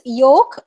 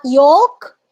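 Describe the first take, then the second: First: Yoke said with a silent l; correct pronunciation demo. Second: Yolk said as the mistaken take, rising; wrong pronunciation demo. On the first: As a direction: say yoke as "yohk". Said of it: "it's yoke". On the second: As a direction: say yolk as spelt, voice lifting. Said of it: "it's not yolk". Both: Shown as a demonstration.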